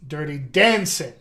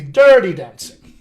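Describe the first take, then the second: First: Dancing을 강조하고 dirty는 가볍게; stress on dancing. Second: Dirty를 세게 강조하며 dancing은 가볍게; stress on dirty. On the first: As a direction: lean on dancing, keep dirty light. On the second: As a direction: punch dirty, let dancing fall. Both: Shown as a demonstration. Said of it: "that stress can change".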